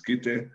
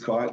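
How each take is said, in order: First: The name is given a Tongan pronunciation. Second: The name is given an English pronunciation. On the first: The speaker calls it wrong. "the Tongan pronunciation, which is Kite" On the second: The speaker calls it right. "the English spelling and pronunciation"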